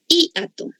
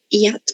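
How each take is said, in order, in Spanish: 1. La i y la a se separan en sílabas distintas. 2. La i y la a se unen en una sola sílaba. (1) "Si fuera un hiato, sonaría de esta forma" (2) "pero pronunciamos como un diptongo"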